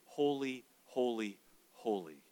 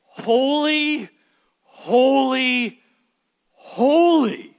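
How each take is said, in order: First: Soft and fading lower with each holy; a whispered-down triple holy; hushed reverent holy. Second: Each "Holy" held long, much higher and louder; preacher voicing the angels' loud triple holy; ringing proclamation. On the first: Shown as a demonstration. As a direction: let each holy sink quieter and lower, in awe. Quoting the angels' phrase reverently. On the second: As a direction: proclaim it like angels crying out in heaven. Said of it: "this triad and say".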